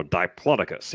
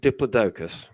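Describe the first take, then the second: First: Diplodocus said the Texan way, lower in pitch; Texas-style variant of Diplodocus; Texan pronunciation. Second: Said in the usual way. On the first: Shown as a demonstration. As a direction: say Diplodocus as a Texan would, as a low aside. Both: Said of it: "if you're from Texas".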